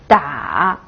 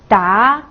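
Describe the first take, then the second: First: The pitch dips low, then rises. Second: The pitch rises from middle to high.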